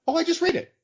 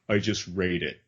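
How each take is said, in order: First: It sounds light and innocent. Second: It sounds curt and dismissive.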